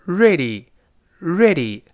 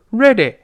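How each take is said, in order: First: "ready" ending in a clear long "ee"; "ready, ready", each falling onto a clean "ee"; correct final vowel. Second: "ready" ending in a short "eh"; wrong final vowel. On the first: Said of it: "但单词末尾要发一". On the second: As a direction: mistaken "red-eh" for "ready". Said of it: "所以不是ready". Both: Shown as a demonstration.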